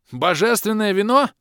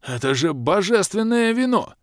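First: High, loud yell with вино rising. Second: Wheezed. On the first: Bom yelling as the divine wine appears. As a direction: shout it out in greedy alarm. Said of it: "заорал Бом". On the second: Zloba wheezing in awe over the divine wine. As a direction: let the voice climb on вино. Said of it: "просипел черноволосый злоба". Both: A narrator's reading.

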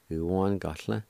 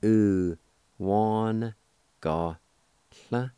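First: Said in the usual way. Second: U, wan, ga, sla, each syllable held apart, N joined to "wan". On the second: Shown as a demonstration. Teacher showing the silent I to learners, syllable by syllable. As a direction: sound out "U, wan, ga, sla" one piece at a time. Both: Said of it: "sound with the W A like this".

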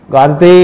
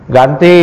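No difference in how they are said.

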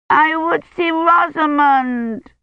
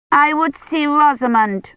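First: Put-on high, slow tearful child wail. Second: Put-on high, stubborn child voice; a small girl demanding her way; insistent little girl. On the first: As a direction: wail it like a crying little girl. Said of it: "she wailed". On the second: Agnes insists. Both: A narrator's reading.

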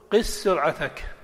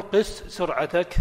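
First: "قس سرعتك" with the two sin sounds merged into one doubled sin. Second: "قس سرعتك" with each sin said apart, qis then surʕatak; separated sin. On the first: Teacher showing the class the required merged "قس سرعتك". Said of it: "يجب أن تقول". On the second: Teacher showing the class the wrong separated "قس سرعتك". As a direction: sound both sin in "قس سرعتك" separately, not merged. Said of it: "ولا تقل". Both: Shown as a demonstration.

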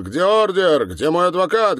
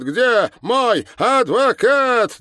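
First: High, loud, outraged questions; yelled demands. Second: Very high, loud, word-by-word shout; drawn-out yell. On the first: Arrested man demanding warrant and lawyer, yelling. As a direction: fire the demands at them, yelling. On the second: Arrested man repeating his demand for a lawyer, bellowing. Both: Acted.

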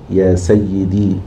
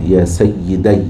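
First: سيدي ending in a long ee; singular ending. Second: سيدي ending in -ay; dual ending. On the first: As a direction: say سيدي with final -ee, as "sayyidee". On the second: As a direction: say سيدي as "sayyiday", final diphthong. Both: Shown as a demonstration. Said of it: "مثنى يعني".

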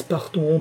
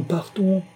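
First: High, pleading cry; anguished plea to go; heartbroken plea. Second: Even higher, desperate cry rising at the end; last anguished plea, climbing in pitch; rising heartbroken plea. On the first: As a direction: beg him to leave, voice lifting. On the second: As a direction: push the begging to its peak. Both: A narrator's reading. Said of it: "s'écria-t-elle d'une voix navrée".

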